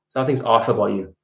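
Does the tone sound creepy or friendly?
creepy. The tone sounds cold and creepy. The remark comes across as a disturbing judgment. The speaker calls it wrong. "It looks like a psychopath telling the women that"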